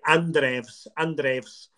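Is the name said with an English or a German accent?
German. The name is said with a German accent. The speaker does not know the name's real pronunciation. The speaker calls it wrong. "which is how a German might say it if he didn't know"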